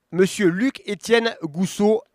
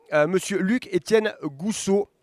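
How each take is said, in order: No difference in how they are said.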